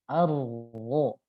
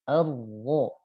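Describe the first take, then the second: First: The r is trilled faintly with reduced vibration. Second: The r is trilled faintly with reduced vibration.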